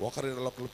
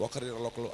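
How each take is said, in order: Both takes have the same delivery.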